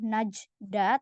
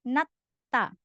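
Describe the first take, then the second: First: The middle sounds are a j and a d. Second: The middle sound is a single hard t. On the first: The speaker calls it wrong. "Jadi bukan najda" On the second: The speaker calls it right. "tapi nata"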